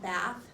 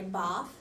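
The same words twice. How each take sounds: First: It is said with an American vowel. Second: It is said with a British vowel.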